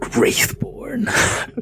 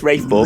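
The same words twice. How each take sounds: First: It is said in a deep, dramatic voice. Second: It is said in an ordinary, flat voice. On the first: The speaker calls it right. "you have to say it like that" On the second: The speaker calls it wrong. "You can't say it any other way. You can't be like"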